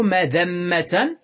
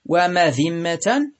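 First: مذمة as madhamma, a on the dhal; regular fatha form. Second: ومذمة as wa-madhimma, i on the dhal; irregular kasra form. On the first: Teacher giving the regular noun, مذمة said madhamma. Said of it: "قياسا". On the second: Teacher giving the irregular noun, ومذمة said wa-madhimma. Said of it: "شذوذا". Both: Shown as a demonstration.

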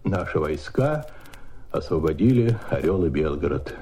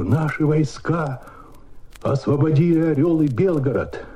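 First: Restrained. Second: High, bursting with joy; joyful excitement. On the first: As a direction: keep the joy in check, measured and grave. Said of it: "но нужно сдержать себя". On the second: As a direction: announce the victory unable to hold back joy. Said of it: "как такую радость сдержишь?". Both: Retold or imitated.

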